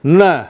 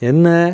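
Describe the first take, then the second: First: The word is said in a hard, menacing tone. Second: The word is said in a warm, gentle tone. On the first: The listener is being warned of trouble. "வேறு மாதிரி அர்த்தம் மாறிடும்" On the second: The listener is being addressed with fondness. "என்னப்பா என்னடா கண்ணு அப்படி அப்படி சொல்கிற அந்த பாவம்"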